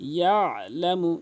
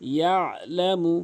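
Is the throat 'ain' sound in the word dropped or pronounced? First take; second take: pronounced; pronounced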